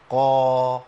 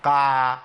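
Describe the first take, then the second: First: قا with only a partly open vowel and a bounce; partial-opening قا; correct partial opening. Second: قاع with a wide, fully open vowel; wrong full opening. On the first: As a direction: show the right قا, opening just part way. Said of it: "يبقى لازم الانفتاح يبقى جزئي". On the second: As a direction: demonstrate the faded, wrong قاع. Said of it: "حرف القاف بقى عامل إزاي؟ باهت". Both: Shown as a demonstration.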